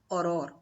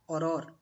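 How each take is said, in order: No difference in how they are said.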